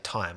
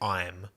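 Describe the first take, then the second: First: The first t sound is clearly pronounced. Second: The first t sound is left out. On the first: "I always pronounce the T's at the start of a word" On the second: "I don't say"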